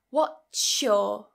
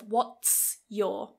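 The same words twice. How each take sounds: First: The two words blend into one changed sound. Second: The two words are pronounced separately and fully. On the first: "we've got some assimilation there" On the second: "instead of"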